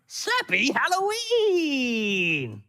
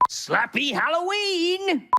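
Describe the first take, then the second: First: It is said in a funny, comic way. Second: It is said in a plain, normal way.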